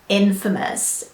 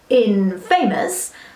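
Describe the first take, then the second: First: It does not sound like 'in' plus 'famous'. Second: It sounds like 'in' and 'famous' joined together. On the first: The speaker calls it right. "The right pronunciation is infamous" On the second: The speaker calls it wrong. "take two words that we know, like in and famous, and smush them together"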